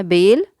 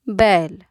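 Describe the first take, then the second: First: बेल with a closed e, like bayl said as "bel"; e vowel. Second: बैल with an open ɛ, as in "bat" stretched; ai vowel. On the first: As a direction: say बेल with the plain ए sound, short and tight. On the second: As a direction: say बैल opening the ऐ to ɛ. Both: Shown as a demonstration. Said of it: "मात्रा का अंतर आपको समझ में आए".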